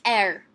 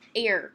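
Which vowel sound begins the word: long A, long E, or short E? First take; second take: short E; long A. First: The word begins with a short E vowel. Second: The word begins with a long A vowel.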